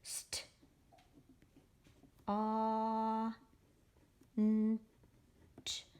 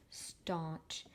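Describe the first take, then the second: First: "St-, aw, n-, ch" as isolated sounds with long pauses; slow phonics segmenting; sounding out. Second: Said in the usual way. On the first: Shown as a demonstration. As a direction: stretch the "aw", each sound on its own. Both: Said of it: "So here we go for staunch".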